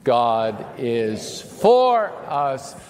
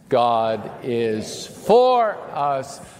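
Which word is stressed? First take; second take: for; for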